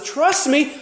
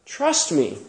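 First: High, urgent plea to trust; high-pitched emphatic "Trust me"; earnest promise. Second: Quiet, tender "Trust me"; hushed, gentle "Trust me"; soft trust me. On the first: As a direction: press it on them like a promise. Preacher voices God's promise. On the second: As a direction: murmur "Trust me" like a comfort. Preacher voices gentle God. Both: Retold or imitated.

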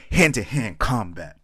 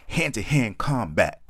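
First: Slow, loud, higher animated line; animated redo of the poem line; really animated. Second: Slow, loud, higher animated delivery; overly animated poem line; really animated. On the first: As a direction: punch each word out, slowly and loud. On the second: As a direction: ham it up, drag every word out. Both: Acted. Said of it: "I had to get really animated with that one".

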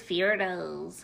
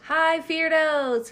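First: Low DJ voice. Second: High, slow sing-song greeting; drawn-out greeting. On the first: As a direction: drop into the DJ voice. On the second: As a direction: stretch the hello out high. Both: Shown as a demonstration.

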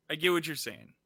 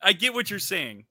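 First: Softer, conceding repeat; quieter, resigned. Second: Emphatic. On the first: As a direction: let it go, softer. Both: Real, not acted. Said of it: "repeated quieter".

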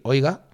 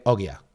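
First: Said in the usual way. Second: Ogia, the vowels of oiga scrambled; Ogia, mangled oiga. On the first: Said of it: "en vez de decir". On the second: Shown as a demonstration. Explaining the bar trick to his co-host, says Ogia. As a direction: say Ogia, swapping the sounds of oiga.

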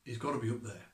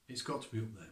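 First: Said in the usual way. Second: Softer repeat, letting it sink in; quiet echo. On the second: Shown as a demonstration. Preacher repeating his point to the congregation, quieter and reflective. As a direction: say it again, dropping your voice.

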